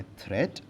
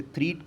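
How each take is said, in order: First: थ्रेट said with a short "e", as "thret"; the correct short "thret" for learners; correct pronunciation. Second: थ्रीट said with a long "ee", as "threet"; the mistaken "threet" for learners; wrong pronunciation. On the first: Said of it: "सही pronunciation है". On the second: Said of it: "threat is wrong". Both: Shown as a demonstration.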